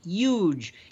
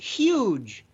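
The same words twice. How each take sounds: First: The word is said in a New York accent. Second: The word is said in a plain standard accent.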